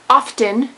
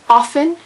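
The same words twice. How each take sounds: First: The T sound is pronounced. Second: The T sound is silent. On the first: The speaker calls it wrong. "not often" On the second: The speaker calls it right. "because the T is silent"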